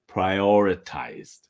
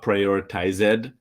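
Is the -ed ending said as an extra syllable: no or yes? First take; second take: no; yes. First: The ending adds no extra syllable. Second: The ending is said as an extra syllable. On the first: The speaker calls it right. "you can see the e, but the pronunciation is prioritized" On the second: The speaker calls it wrong. "not prioritized"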